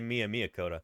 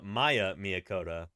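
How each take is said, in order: First: The first name is said as 'Mee-a'. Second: The first name is said with two syllables, 'Maya'. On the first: This is how the speaker says the name. The speaker calls it right. "I say Mia Miyakota" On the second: This is how a computer voice reads the name. The speaker calls it wrong. "I like how T T S says uh, ... It's mixing phonemes there"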